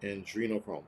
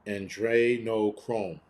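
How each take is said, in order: First: Andrenochrome with "dree" as the second syllable, low and soft; trying a pronunciation. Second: Andrenochrome drawn out slowly with "dray" as the second syllable; alternative pronunciation. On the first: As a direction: quietly try Andrenochrome as an-dree-no-chrome. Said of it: "Someone said it the other way". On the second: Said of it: "Whether it's Andrenochrome or Andrenocreme". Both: Shown as a demonstration.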